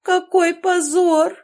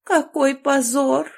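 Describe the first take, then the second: First: Much higher, louder, slow tragic wail; hammed-up despair building to a wail; second cry of shame, louder and higher; dying wail. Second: Slow, high tragic moan; first cry of shame, slow and theatrical; dying moan. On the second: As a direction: groan it like a martyr. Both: A narrator's reading. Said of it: "умирающим голосом простонав".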